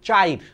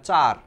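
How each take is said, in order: First: It is said as 'chair' with an added 'i' glide. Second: It is said as plain 'char' with one vowel.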